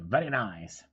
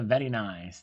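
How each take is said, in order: First: It is said with an exaggerated put-on foreign accent. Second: It is said in the speaker's ordinary accent.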